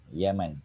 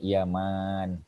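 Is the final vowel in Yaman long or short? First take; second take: short; long. First: The final vowel is said short. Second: The final vowel is said long. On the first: It names the country. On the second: It names the companion's father. "Tapi yang ni Yaman panjang"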